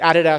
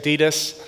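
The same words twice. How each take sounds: First: It is said with a non-American pronunciation. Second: It is said with an American pronunciation.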